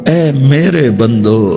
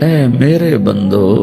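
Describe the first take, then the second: The two takes are said the same way.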